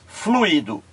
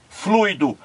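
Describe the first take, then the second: First: "fluido" as flu-Í-do, stress on i; fluído with hiatus. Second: "fluido" as FLUI-do, stress on u; fluido as diphthong. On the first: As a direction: say "fluido" in three syllables. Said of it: "ele leva um acento". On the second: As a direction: say "fluido" in two syllables. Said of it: "aqui apenas um pontinho". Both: Shown as a demonstration.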